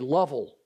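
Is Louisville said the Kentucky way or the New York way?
Kentucky. It is said with a Kentucky pronunciation. "In Kentucky, people say Lovell"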